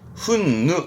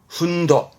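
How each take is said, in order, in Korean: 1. 이 단어는 'nu' 소리로 끝납니다. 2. 이 단어는 'do' 소리로 끝납니다. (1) "근데 가끔은 훈누 훈누 합니다" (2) "분노 발음은 훈도"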